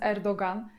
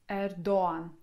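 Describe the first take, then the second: First: A g sound is heard after a short o. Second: The o is long and no g is heard. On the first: The speaker calls it wrong. "z błędem dziennikarze to nazwisko wymawiają" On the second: The speaker calls it right. "O wydłużamy"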